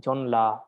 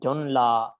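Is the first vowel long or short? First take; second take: short; short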